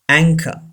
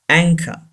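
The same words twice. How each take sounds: No difference in how they are said.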